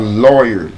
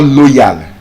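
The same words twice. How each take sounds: First: The vowel glides from oi into a schwa. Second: The vowel does not glide from oi into schwa. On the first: The speaker calls it right. "the oi and the schwa sound. Oyer" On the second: The speaker calls it wrong. "It's not loyal"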